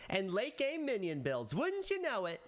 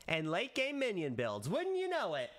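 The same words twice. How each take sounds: First: Much higher on "Wouldn't you know it", teasing; spring the surprise with a high tease; playful surprise reveal. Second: Playful surprise reveal. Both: Shown as a demonstration. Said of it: "I think that was good".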